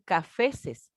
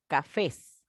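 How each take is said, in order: First: Cafeses with an extra "-es" syllable at the end; "cafeses" as three syllables, ca-fe-ses; wrong plural cafeses. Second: Cafés ending straight on a stressed "-fés"; "cafés" with only an s added; correct plural cafés. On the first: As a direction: say "cafeses", doubling the plural ending. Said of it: "yo no voy a decir". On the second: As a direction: say "cafés" slowly, just two syllables. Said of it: "yo no voy a decir cafeses". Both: Shown as a demonstration.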